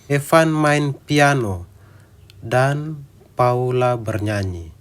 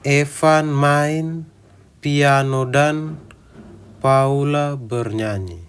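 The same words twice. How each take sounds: First: Pauses fall at the natural phrase breaks. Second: Pauses fall at odd, unnatural points. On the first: The speaker calls it right. "kita memberi jeda di tempat yang tepat" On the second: The speaker calls it wrong. "Kita tidak memberi jeda seperti itu"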